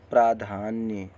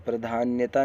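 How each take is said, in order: First: प्राधान्य ending on "nya", without ta; प्राधान्य with no added ending; correct word form. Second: प्राधान्यता with an extra "ta" ending; प्राधान्यता ending on a long taa; wrong word form. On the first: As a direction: close प्राधान्य on nya with falling pitch. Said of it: "ऐसे लिखा पढ़ा जाएगा". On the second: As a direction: add the mistaken ta to प्राधान्यता. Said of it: "प्राधान्यता नहीं". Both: Shown as a demonstration.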